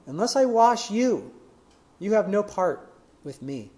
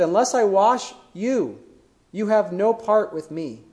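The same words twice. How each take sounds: First: Said in the usual way. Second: Slow, weighty delivery with I stressed; slow and weighty, I and no leaned on; solemn, slow. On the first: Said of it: "repeats the quote for emphasis". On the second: Retold or imitated. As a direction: let each word of Jesus land slowly. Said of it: "Jesus' response is so powerful".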